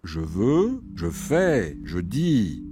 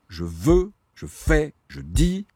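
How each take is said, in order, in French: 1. Les voyelles sont accentuées, les consonnes restent légères. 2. Les consonnes sont frappées fort et mises en valeur. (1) "cette fois, vous l'avez remarqué, j'ai accordé un privilège aux voyelles" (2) "paraîtra toujours plus agressif"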